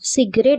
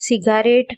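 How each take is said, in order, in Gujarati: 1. આ શબ્દ બે ઉચ્ચારણમાં બોલાય છે. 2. આ શબ્દ ત્રણ ઉચ્ચારણમાં બોલાય છે. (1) "સિગરેટ બોલીએ છીએ" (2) "લખવાનું છે સિગારેટ"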